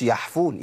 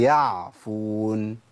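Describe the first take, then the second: First: "يعفون" بحاء "يحفون"; العين تنقلب حاء; ain as haa. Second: "يعفون" بعين واضحة ممدودة ببطء; أظهر العين في "يعفون"; clear ain. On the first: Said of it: "ما اقولش". (نطق خاطئ) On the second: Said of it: "هي". (نطق صحيح) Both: Shown as a demonstration.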